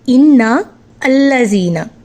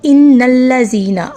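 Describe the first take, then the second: First: The words are separate with the middle vowel pronounced. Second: The words run together with the middle vowel dropped. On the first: "जैसे ही हमने इनको अलहदा किया" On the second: "मिलाकर पढ़ेंगे तो इन्नल्लज़ीना, अब यहाँ पे अलिफ हज़फ हो गया, साइलेंट हो गया"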